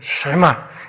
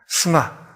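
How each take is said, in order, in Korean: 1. 첫 음절은 'sh'로 시작하고 'we' 활음이 붙어요. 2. 첫 음절은 약화된 모음이 붙은 평범한 's'예요. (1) "우리말에서는 이걸 쉐마라고 해서" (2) "스마라는 발음이 훨씬 더 원어에 가깝긴 합니다"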